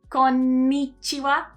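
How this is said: The word is split into five even beats. "Here we've got five mora"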